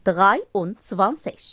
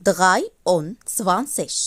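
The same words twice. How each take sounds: No difference in how they are said.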